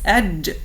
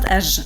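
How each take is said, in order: First: The j sound ends with an explosive burst. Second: The j sound ends softly, like English j. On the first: The speaker calls it right. "It sounds like an explosion" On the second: The speaker calls it wrong. "Aj like James or George"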